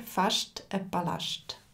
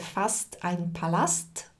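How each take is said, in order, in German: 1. Das st wird mit einem sch-t-Laut gesprochen. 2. Das st wird als einfaches s-t gesprochen. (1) "auf Schweizerdeutsch sagen wir" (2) "auf Hochdeutsch würdest du sagen"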